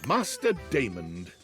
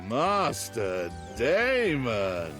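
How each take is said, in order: First: It is said in a plain manner. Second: It is said in a seductive manner.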